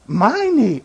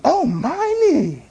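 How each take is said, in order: First: Said in the usual way. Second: "Oh, my need" drawn out very slowly, pitched higher; savoring "my need". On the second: Shown as a demonstration. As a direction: linger on "my need" as if realizing it's personal. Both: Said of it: "You know what that means?".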